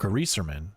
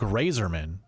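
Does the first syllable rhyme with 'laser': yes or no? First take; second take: no; yes. First: The first syllable does not rhyme with laser. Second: The first syllable rhymes with laser. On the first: This is how one person says the name. "or as Byron likes to call him" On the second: This is how most people say the name. "Grazer, like laser. Probably, it's probably the correct way to say his name"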